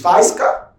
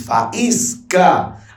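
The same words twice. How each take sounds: First: The two vowels are run together in one syllable. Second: The two vowels are split into separate syllables. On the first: The speaker calls it wrong. "você não diz faísca?" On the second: The speaker calls it right. "Você diz faísca"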